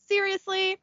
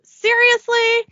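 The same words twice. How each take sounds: First: High, soft, deflated question; exasperated sigh. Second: High, loud, drawn-out SERIOUSLY; louder disbelief. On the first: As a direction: say SERIOUSLY like a resigned complaint. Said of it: "Then he sighs and says". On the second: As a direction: stretch it out in mock outrage. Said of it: "at his new clothes and says". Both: Acted.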